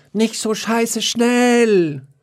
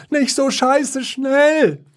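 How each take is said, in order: First: Very high, slow howled mock whine; howling. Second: Very high, slow wailing whine; whining. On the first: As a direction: howl it out slowly to tease. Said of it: "Da jaulte Wiesel". (sehr hohes, langsames Jaulen) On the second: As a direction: wail it slowly up high. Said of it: "jammerte Klops". (sehr hohes, langgezogenes Jammern) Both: A narrator's reading.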